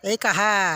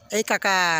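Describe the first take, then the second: First: The second consonant is softened to an 'h' sound. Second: The second consonant is a clear 'k' sound.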